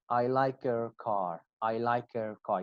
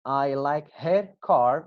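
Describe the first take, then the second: First: "her" cut down to a weak "er" sound; reduced her. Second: Slow, with "her" said in full; slow careful reading. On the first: Teacher showing students the reduced form. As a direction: drop the h, "her" becomes "er". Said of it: "It will be as er, er sound". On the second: Teacher reading the example slowly to students. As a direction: spell out each word slowly. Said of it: "I'll read the examples one more time". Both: Shown as a demonstration.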